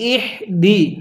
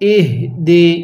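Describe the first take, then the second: First: The h is said with air blown from the mouth. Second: The h is said without extra air from the mouth. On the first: The speaker calls it wrong. "মুখ দিয়ে বাতাস বের করি। যদি এরকমভাবে পড়ি পড়াটা সহি শুদ্ধ হবে না।" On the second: The speaker calls it right. "কিভাবে পড়তে হবে?"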